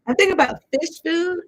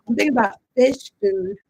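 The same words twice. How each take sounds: First: Fish food lifted much higher; higher repeat. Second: Said in the usual way. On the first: Real, not acted. Repeating her tarot hunch to viewers, much higher. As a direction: sing fish food up high.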